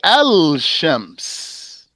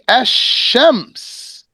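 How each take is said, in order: First: The L sound is clearly pronounced before the consonant. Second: The L sound merges into a doubled following consonant. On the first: The speaker calls it wrong. "You don't say Al-Shams" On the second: The speaker calls it right. "you merge the lam into the sheen"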